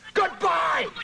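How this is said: It is said strongly, with force.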